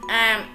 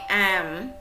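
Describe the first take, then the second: First: The syllable has a low heavy, clipped tone. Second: The syllable has a dipping tone. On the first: "nặng" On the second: "hỏi"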